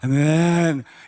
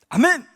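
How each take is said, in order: First: It is said dully, like a cow's moo. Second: It is said with lively, fervent energy.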